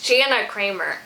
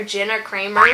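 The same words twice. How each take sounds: First: Jana Kramer, said as JAN-a with the a of "can"; corrected name. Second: Jenna Kramer, said as JEN-na with a short e like "pen"; wrong name said. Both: Shown as a demonstration. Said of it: "did I really just do that whole thing calling her [name]".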